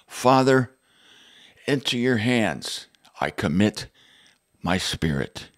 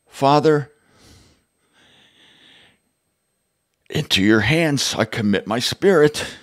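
First: It is said like a resigned, defeated statement. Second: It is said without sounding resigned or defeated. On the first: He is giving up. The speaker calls it wrong. "Almost like a statement of resignation" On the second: He is not giving up. The speaker calls it right. "this is how our Lord would intone it"

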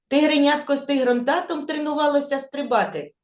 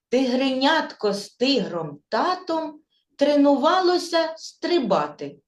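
First: The sentence is spoken very fast. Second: The sentence is spoken slowly. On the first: "А тепер іще швидше" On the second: "Спочатку ми її скажемо повільно"

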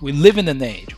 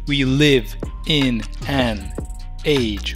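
First: The words run together, linked into each other. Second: The words are said separately, without linking. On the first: The speaker calls it right. "We say like this" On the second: The speaker calls it wrong. "we don't say we live in an age where"

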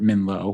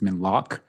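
First: The name ends with a plain vowel sound. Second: The name ends with a throaty ch sound. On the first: This is the anglicized form of the name. "the e- English sort of heard Minlo" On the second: This is the native local form of the name. "the correct pronunciation, the appropriate pronunciation um, in the native tongue"

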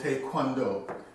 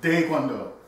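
First: The word begins with a clear T sound. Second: The word begins with a softer T-D sound. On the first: This is the common everyday pronunciation. The speaker calls it wrong. "That's parochial, but it's not accurate" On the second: This is the accurate Korean pronunciation. The speaker calls it right. "It's like a T-D sound saying DaeGwonDo"

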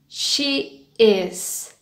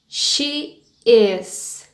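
No difference in how they are said.

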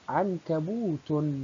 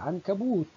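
First: The word ends with t followed by -un. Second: The word ends on a bare t sound. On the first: The word runs on into following speech. "ننطق الحركة مع التاء فتنطق تاء مع تنوين الضم" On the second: The word is at the end of speech. "عند الوقف عليها نقول عنكبوت فتنطق تاء"

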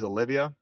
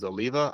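First: The name is said with four syllables. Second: The name is said with three syllables. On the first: The speaker calls it wrong. "A lot of people pronounce these Olivia" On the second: The speaker calls it right. "the correct way to say it is Oliva"

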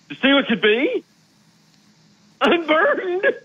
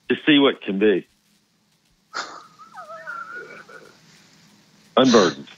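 First: It is said in a funny, comic way. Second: It is said in a sad, moving way. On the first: The line is meant to make the listener laugh. "or it can be funny" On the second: The line is meant to move the listener to tears. "That's really a tearjerker when she says that"

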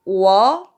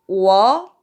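First: It is said with the second tone. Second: The same.

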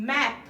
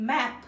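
No difference in how they are said.

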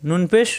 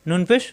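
The two takes are said the same way.

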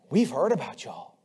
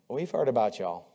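First: It sounds warm and pleased. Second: It sounds cool and disapproving.

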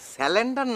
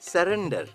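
First: The middle consonant is an l sound. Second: The middle consonant is an r sound. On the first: The speaker calls it wrong. "স্যালেন্ডার না ভাইয়া" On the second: The speaker calls it right. "উচ্চারণটা হবে সারেন্ডার"

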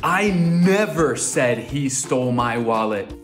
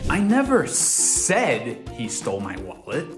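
First: The word "never" carries the main stress. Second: The word "said" carries the main stress. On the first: It was never said at any time. "Agora tô dizendo que eu nunca, jamais, never" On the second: It was not spoken aloud but perhaps conveyed otherwise. "Agora tô insinuando que não verbalizei nada com minha boca"

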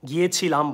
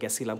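First: The word is said in its full, standard form. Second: The word is said in a shortened, colloquial form. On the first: It is careful speech used with strangers. The speaker calls it right. "গিয়েছিলাম বলেন" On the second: It is casual speech used with family and friends. The speaker calls it wrong. "অশিক্ষিত উচ্চারণ করতে পারেন"

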